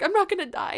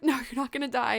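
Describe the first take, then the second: First: High, louder plea for confirmation; anxious disbelief. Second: Retold doctor's steady reassurance; reassuring. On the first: Retold or imitated. Patient asking the doctor after the scan, anxious disbelief. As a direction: retell a patient's worried check. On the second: Doctor answering a frightened patient, reassuring. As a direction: settle the patient's fear, evenly.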